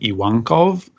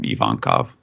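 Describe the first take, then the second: First: The second syllable starts with a W sound. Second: The second syllable starts with a V sound. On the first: This is the Japanese pronunciation. "in Japanese, it's actually Iwankov" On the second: This is the anglicized pronunciation. "in terms of like uh, translating that into an anglicized pronunciation"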